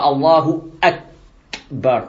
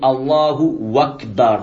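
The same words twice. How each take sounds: First: A glottal stop is heard before Akbar. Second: The glottal stop before Akbar is dropped. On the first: The speaker calls it right. "Il ne dit pas Allahu Akbar" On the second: The speaker calls it wrong. "Il a enlevé le alif Hamza"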